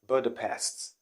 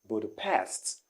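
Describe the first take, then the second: First: The stress falls before the last syllable. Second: The stress falls on the last syllable. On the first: The speaker calls it wrong. "the wrong pronunciation here is Budapest" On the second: The speaker calls it right. "The stress is at the last syllable"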